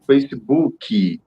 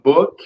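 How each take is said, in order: First: It is said with a Brazilian Portuguese accent. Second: It is said with an English accent.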